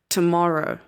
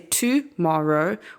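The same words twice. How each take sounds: First: The first syllable has a quick, reduced vowel. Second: The first syllable has a full, accented vowel. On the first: The speaker calls it right. "we say t, tomorrow" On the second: The speaker calls it wrong. "We don't say tomorrow"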